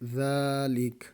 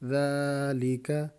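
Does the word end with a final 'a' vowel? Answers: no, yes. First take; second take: no; yes. First: The word ends on a plain 'k' sound. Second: The word ends with a short 'a' vowel. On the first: The reader stops on this word. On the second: The reading continues without stopping.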